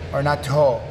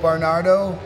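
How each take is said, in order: First: The middle consonant is a T sound. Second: The middle consonant is a D sound. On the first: The speaker calls it right. "It's a T, not a D" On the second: The speaker calls it wrong. "Did I say it right?"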